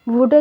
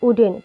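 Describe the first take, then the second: First: The word starts with a w sound. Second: The word starts with a vowel sound. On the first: The speaker calls it wrong. "वुडन नहीं पढ़ेंगे" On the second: The speaker calls it right. "इसको उडेन पढ़ते हैं"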